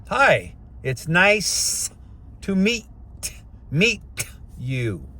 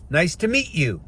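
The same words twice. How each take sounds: First: Slow, over-enunciated greeting, each word separate; careful greeting. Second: Said in the usual way. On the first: Shown as a demonstration. Coaching men to greet someone, slow exaggerated diction. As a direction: spell out "Hi, it's nice to meet you" word by word, very slowly. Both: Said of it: "And it comes out in one roll".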